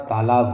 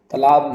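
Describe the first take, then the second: First: तालाब with a long first vowel; correct form. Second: तालाब with a short first vowel; wrong form. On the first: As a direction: say तालाब as "taa-laab". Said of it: "तालाब होता है". (तालाब में "ता" लंबा बोलें) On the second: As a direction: say तालाब as "ta-laab". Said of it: "तालाब नहीं होता". (तालाब को "तलाब" बोलें) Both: Shown as a demonstration.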